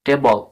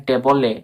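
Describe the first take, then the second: First: টেবল ending on L, te-bol; silent E. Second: টেবলে with an extra "e" ending, te-bo-le; mistaken sounded E. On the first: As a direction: stop টেবল on the L, no final vowel. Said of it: "পুরোপুরি ই silence". (টেবল-এর শেষে ই অনুচ্চারিত) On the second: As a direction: add a vowel after the L in টেবলে. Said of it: "টেবলে বলা হচ্ছে না". (টেবলে-র শেষে এ ধ্বনি উচ্চারণ করে) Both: Shown as a demonstration.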